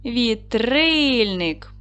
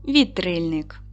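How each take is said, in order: First: "Вітрильник" drawn out slowly on stressed "ри"; very slow "Вітрильник", long stressed "ри"; stress demonstration. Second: Said in the usual way. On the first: Shown as a demonstration. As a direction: stretch the second syllable of "Вітрильник". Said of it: "поставте наголос". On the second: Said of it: "запишіть слово".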